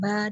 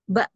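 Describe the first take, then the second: First: The vowel is drawn out long. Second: The vowel is cut off by a glottal stop. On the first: "dengan ba dengan panjang" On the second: "ada yang ba"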